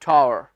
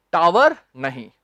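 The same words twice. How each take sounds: First: टावर said "taar", low and short; correct pronunciation. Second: टावर said "taa-var" with a clear v; the common Indian taa-var; wrong pronunciation. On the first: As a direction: tower as taar, no v. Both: Shown as a demonstration.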